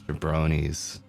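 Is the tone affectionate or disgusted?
disgusted. It is said in a scornful, disgusted tone. The word is used as a real insult.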